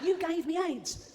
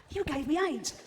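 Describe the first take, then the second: First: Very high, slow squealed outrage; drawn-out mock accusation. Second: High-pitched, squealed accusation; mock outraged accusation. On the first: Patient accuses the chimp, drawn-out mock outrage. Accusation repeated in acted quarrel. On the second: First patient confronts the chimp in the jungle, mock outraged.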